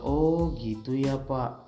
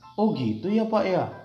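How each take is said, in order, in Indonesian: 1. Diucapkan dengan nada lembut dan bersimpati. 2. Diucapkan dengan nada terkejut dan tidak percaya. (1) "emosi yang ingin kamu sampaikan adalah kamu respect, kamu berempati" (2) "kamu ingin mengantarkan emosi tidak percaya, penasaran"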